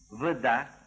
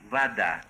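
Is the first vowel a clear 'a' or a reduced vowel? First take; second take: reduced; clear a. First: The first vowel is a reduced, unclear sound. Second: The first vowel sounds like a clear 'a'. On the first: The speaker calls it wrong. "неправильные произношения ... Здесь вы слышите редуцированный звук «э» не на месте" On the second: The speaker calls it right. "В первом предударном слоге они произносятся как «а»"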